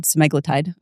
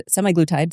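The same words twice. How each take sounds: First: Semaglutide said "suh-MAG-luh-tide"; second pronunciation variant. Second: Semaglutide said "SEM-eye-gloo-tide"; first pronunciation variant. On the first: Clinician showing colleague the other way, semaglutide as "suh-MAG-luh-tide". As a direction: put the emphasis of semaglutide on "MAG". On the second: Clinician showing colleague one way to say the drug, semaglutide as "SEM-eye-gloo-tide". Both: Shown as a demonstration. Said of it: "where you put the emphasis".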